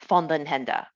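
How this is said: The name is said with Dutch pronunciation. This is the original family pronunciation. "he pronounces it the proper way"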